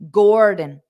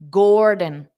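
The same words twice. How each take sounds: Both takes have the same delivery.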